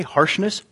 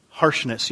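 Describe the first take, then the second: First: "Harshness" softly rising as a question; soft, querying "Harshness"; checking question. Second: "Harshness" softly falling as a statement; soft, accepting "Harshness"; confirming echo. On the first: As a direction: check you heard "Harshness" right, lifting the end. What did you say?. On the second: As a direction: confirm "Harshness" with a settled drop. Confirming the answer just heard. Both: Real, not acted.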